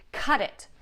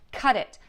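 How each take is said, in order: Both takes have the same delivery.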